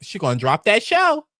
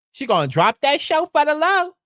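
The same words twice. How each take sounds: First: Said in the usual way. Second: Higher and louder, relishing it; gleeful emphatic retake, higher and louder; emphatic repeat. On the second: Shown as a demonstration.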